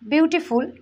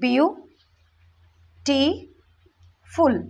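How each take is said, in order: First: The word is said smoothly without breaks. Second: The word is split with pauses between syllables.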